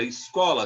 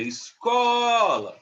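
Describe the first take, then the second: First: Said in the usual way. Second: ESCOLA called with a long, loud, high CO; drawn-out call of "escola", holding the stressed CO; calling out, stretched syllable. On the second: Shown as a demonstration. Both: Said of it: "se a gente fosse chamar".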